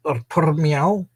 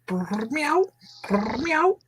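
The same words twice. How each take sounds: First: Said in the usual way. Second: High squeaky kitten purr and meow. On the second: Acted. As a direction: coo it like a happy kitten. Imitating a happy cat.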